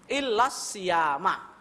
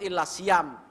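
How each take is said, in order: First: The last word ends with an a vowel. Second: The last word ends without any final vowel. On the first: "wajib dibaca fathah" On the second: "yang paling selamat ... Sukun"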